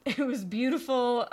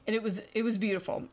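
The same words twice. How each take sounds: First: Real laugh, louder and a little higher. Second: Said in the usual way. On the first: Real, not acted. Host delighted by the kindergarten boy's success, laughing. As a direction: laugh through "beautiful" with delight.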